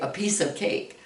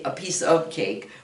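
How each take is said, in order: First: The word 'of' is shortened to a weak sound. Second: The word 'of' is said fully and clearly. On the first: The speaker calls it right. "we kind of shorten that of" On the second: The speaker calls it wrong. "usually we don't say a piece of cake"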